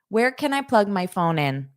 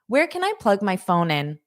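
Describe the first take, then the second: No difference in how they are said.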